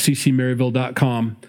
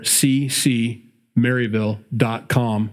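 First: It is said at a quick pace. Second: It is said at a slow pace.

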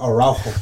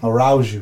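First: The name gets its native Spanish pronunciation. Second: The name gets an anglicized, mangled pronunciation. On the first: This is how the name should be said. The speaker calls it right. "Instead of Araujo" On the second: This is how the commentators said it. The speaker calls it wrong. "they were saying Araujo"

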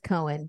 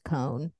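First: The name is said with two syllables. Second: The name is said with one syllable. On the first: "I was saying it as Cohen" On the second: "it could be like just Cone"

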